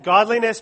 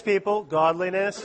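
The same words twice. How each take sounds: First: Godliness called out loud and high; emphatic word. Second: Godliness repeated lightly, laughing. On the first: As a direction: punch out Godliness as a rallying word. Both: Shown as a demonstration.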